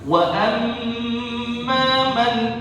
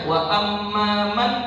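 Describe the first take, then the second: First: The doubled m is held with a nasal hum. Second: The doubled m is short, without nasal hum. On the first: The speaker calls it right. "Jadi harus kita tekan wa amma man" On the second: The speaker calls it wrong. "mim yang bertasydid ini enggak ada ghunnah"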